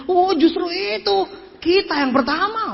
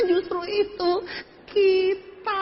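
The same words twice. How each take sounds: First: High, stretched-out eager answer; imitated enthusiastic comeback. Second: High, slow, softer whimper; mock whimpering answer. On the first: Speaker answering who got a car, high drawn-out enthusiasm. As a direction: draw it out high with mock enthusiasm. Acted salesman answering a sceptical question. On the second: Speaker admitting no local success, high mock whimper. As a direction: squeeze it out in a half-crying mock wail.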